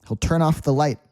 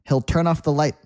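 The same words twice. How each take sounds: No difference in how they are said.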